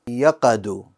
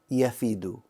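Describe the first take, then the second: First: The middle consonant is a q sound. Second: The middle consonant is an f sound. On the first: The speaker calls it wrong. "I pronounced the fa as a qaf. I said yaqa" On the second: The speaker calls it right. "It should be yafidu"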